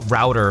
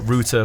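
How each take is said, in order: First: It is said with an American pronunciation. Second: It is said with a British pronunciation. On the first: "router for Americans" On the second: "but router for the U K"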